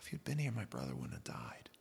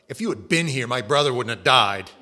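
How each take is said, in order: First: It is said in a sad, grieving tone. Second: It is said in a sharp, accusing tone. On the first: The speaker is simply mourning the loss. "That's the tone I expect out of Mary" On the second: The speaker is blaming the listener for the loss. "I just kind of picture Martha as more of a"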